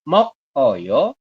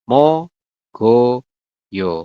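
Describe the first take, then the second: First: The final consonant is kept separate from the vowel. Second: The final consonant is linked into the vowel. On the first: The speaker calls it wrong. "tulisannya mok oyo" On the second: The speaker calls it right. "dibacanya adalah mogoyo"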